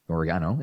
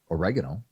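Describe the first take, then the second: First: It is said with a British pronunciation. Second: It is said with an American pronunciation.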